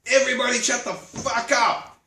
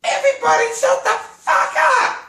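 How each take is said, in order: First: Raised, slightly harsh shout over the crowd; retold yell. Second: Put-on very high, loud child's shriek; a four-year-old shouting down her family; little girl yelling. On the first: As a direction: cut through the din with a sharp yell. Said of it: "walk into the center of the room and yell". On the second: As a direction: play a tiny kid screaming at adults. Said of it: "this little girl, four years old ... goes".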